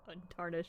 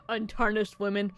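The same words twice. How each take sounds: First: Untarnished said low and hushed; quiet. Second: Breaking into laughter mid-line; laughing through untarnished. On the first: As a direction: murmur untarnished under the breath. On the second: Laughs while reading the line. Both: Real, not acted.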